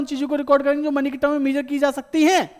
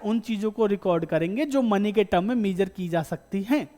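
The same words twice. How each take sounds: First: The sentence is spoken quickly. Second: The sentence is spoken slowly. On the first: The speaker calls it wrong. "तेज बोल गया क्या?" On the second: The speaker calls it right. "आराम से बोल देता हूं।"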